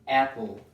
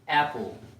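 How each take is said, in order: First: It is said with an English accent. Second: It is said with an English accent.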